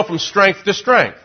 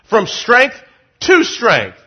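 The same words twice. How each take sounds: First: Said in the usual way. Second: "to" set apart after a pause and punched; stress on "to". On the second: Shown as a demonstration. Preacher repeating scripture to the congregation, stressed "to". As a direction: break after "strength", then lean on "to".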